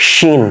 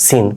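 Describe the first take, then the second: First: "শিন" with a palatal sh; tongue behind the ridge for the sh in "শিন"; palatal pronunciation. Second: "সিন" with a thin s at the teeth; hiss-like s, not sh, in "সিন"; dental pronunciation. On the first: Teacher contrasting two letters for learners, palatal sh in "শিন". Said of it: "ওই অংশে গিয়ে জিহ্বার লেগে থাকবে". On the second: Teacher contrasting two letters for learners, dental s in "সিন". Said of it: "তাহলে দুইটা হচ্ছে কি". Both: Shown as a demonstration.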